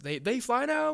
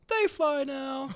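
First: The voice rises at the end like a question. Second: The voice falls at the end like a statement. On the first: The speaker is asking whether they can fly. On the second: The speaker is stating that they can fly.

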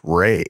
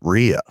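First: The name is said like 'Ray'. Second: The name is said like 'Rhea'. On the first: The speaker calls it right. "it turns out that her name is actually pronounced Ray" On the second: The speaker calls it wrong. "We have been pronouncing the lead actress as Rhea"

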